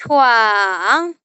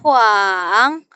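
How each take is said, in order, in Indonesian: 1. Suku kata ini diucapkan dengan nada ketiga, turun-naik. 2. Suku kata ini diucapkan dengan nada ketiga, turun-naik.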